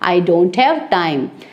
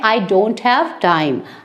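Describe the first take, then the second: Both takes have the same delivery.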